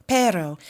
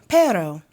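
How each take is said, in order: The two takes are said the same way.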